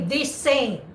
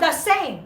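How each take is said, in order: First: 'The' has a long vowel, like 'thee'. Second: 'The' has a short reduced vowel, like 'thuh'. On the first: The speaker calls it right. "you say" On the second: The speaker calls it wrong. "But you don't say"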